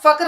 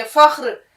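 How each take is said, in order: First: फख्र said with a plain hard k, fakr, as the wrong way; फख्र with a clipped k sound, not from the throat; wrong soft k. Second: फख्र said with a throaty kh, fakhr; फख्र with the kh scraped from the throat. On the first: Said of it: "ख की आवाज है, फख्र नहीं है ये". (फख्र को गलत, सादे क से बोलें) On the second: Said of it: "ख की आवाज है". (फख्र को हलक वाले ख से बोलें) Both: Shown as a demonstration.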